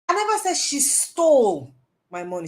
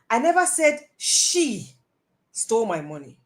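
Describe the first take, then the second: First: The word 'stole' is stressed. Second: The word 'she' is stressed. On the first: She took it but did not steal it. "She may have taken it" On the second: Somebody else may have taken it. "I never said she. It's not how it may be somebody"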